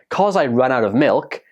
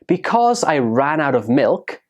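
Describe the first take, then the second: First: The first word is shortened to one syllable. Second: The first word is said in full, two syllables.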